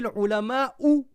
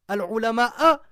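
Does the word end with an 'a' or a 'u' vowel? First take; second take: u; a. First: The word ends with a 'u' vowel. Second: The word ends with an 'a' vowel. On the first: The scholars are the ones who fear. The speaker calls it right. "Ulama'u, c'est le sujet" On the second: The scholars are the ones who are feared. The speaker calls it wrong. "c'est une énorme faute"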